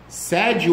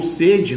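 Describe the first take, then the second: First: "Sede" with an open first E. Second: "sede" with a closed first E. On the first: Teacher contrasting two spellings-alike words, "Sede" with open E. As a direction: say "Sede" with the E as in English "bed". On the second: Teacher contrasting two spellings-alike words, "sede" with closed E. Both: Shown as a demonstration. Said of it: "Sede ou sede não tem acento".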